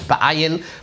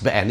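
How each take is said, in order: First: The word is said as three syllables, ba-a-yin. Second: The word is said as two syllables, be-en. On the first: This is the grammatically correct form. "You probably should s- call it ba'ayin" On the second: This is the everyday form people use. "It's always pronounced be'en"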